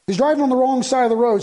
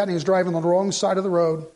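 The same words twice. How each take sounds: First: Higher and louder, hitting "driving"; emphatic repeat. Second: Said in the usual way. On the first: Acted. Pastor tells church about the drunk driver, raised and emphatic. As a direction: drive home the horror.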